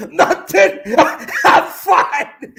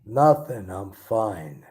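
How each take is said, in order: First: Much higher and louder, laughing through the words; laughing high-pitched denial; high, giggly delivery. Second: Tense and withdrawn. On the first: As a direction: play it giddy and unable to stop laughing. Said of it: "I'm gonna play my role a little bit differently". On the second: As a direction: brush it off, hiding the hurt. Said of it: "so we're gonna try this, a bit tense". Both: Acted.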